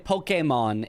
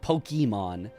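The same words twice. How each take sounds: First: The word has Japanese-style vowel sounds. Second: The word has anglicized vowel sounds. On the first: The speaker calls it right. "I'll still say" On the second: The speaker calls it wrong. "completely wrong"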